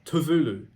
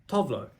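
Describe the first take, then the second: First: The name gets its native Swedish-style pronunciation. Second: The name gets a common English-style pronunciation.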